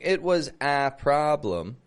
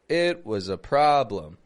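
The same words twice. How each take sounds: First: The article is said with a full 'ay' vowel. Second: The article is said as a reduced schwa. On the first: The speaker calls it wrong. "But I'm not saying it was a problem" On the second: The speaker calls it right. "but I'm saying a"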